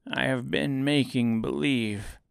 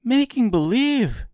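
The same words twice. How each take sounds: First: Understated little man confessing; meek confession. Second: Put-on high, loud girl's disbelief; astonished cry. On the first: Little man confessing to his visitors, mildly meek. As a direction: admit it mildly, without force. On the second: Dorothy shocked by the confession, high astonished cry. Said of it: "cried Dorothy". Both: A narrator's reading.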